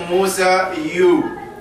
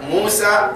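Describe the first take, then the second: First: The name ends with an added case ending. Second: The name ends on its plain final vowel. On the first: The speaker calls it wrong. "We don't say" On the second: The speaker calls it right. "that's it"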